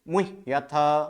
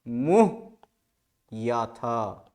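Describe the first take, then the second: First: The word is said joined without a break. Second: The word is split with a break inside. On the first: "फिर उसको join कीजिए" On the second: "इसको पहले इ- इस तरह से"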